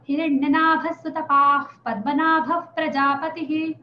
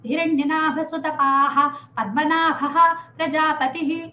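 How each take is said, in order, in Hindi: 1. p से पहले हल्की f जैसी साँस आती है। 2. p से पहले पूरा 'ah' जैसी आवाज़ आती है।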